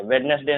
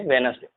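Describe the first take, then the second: First: वेडनेसडे said with the first d sounded, wed-nes-day; wrong pronunciation. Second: वेडनेसडे said with a silent d, wenz-day; correct pronunciation. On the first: Teacher showing students the wrong way, with the d sounded. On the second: Teacher giving students the right way, with a silent d. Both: Shown as a demonstration. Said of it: "वेडनेसडे नहीं".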